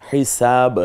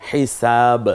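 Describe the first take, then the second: The two takes are said the same way.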